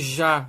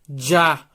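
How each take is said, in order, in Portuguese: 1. A consoante soa como um zh suave. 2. A consoante soa como dj. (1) "Esse já, já. Não é esse som" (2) "um som como se fosse de D mais J"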